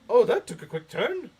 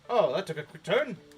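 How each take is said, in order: First: It is said in Yoda's voice. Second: It is said in the speaker's normal voice.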